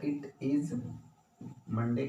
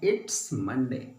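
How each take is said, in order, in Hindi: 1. दोनों शब्द 'it is' पूरे बोले गए हैं। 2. 'It is' छोटा होकर एक सिलेबल 'it's' बन जाता है। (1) "वैसे टेक्निकली ऐसे बोला जाए" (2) "इसको पढ़ते हैं इट्स मंडे"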